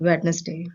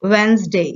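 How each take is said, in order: First: Wednesday with the d and all syllables, wed-nes-day; Wednesday said wed-nes-day, softly; wrong Wednesday. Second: Wednesday said wenz-day, silent d; Wednesday as wenzdey; correct Wednesday. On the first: (Wednesday को वेड-नेस-डे बोलना, गलत तरीका) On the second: (Wednesday बिना डी, वेन्ज़डे) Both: Shown as a demonstration. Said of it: "it's not".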